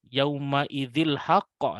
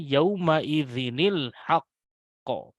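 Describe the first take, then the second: First: The linking n sound before al-haqq is dropped. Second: The linking n sound before al-haqq is kept. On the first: The speaker calls it wrong. "tentu salah" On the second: The speaker calls it right.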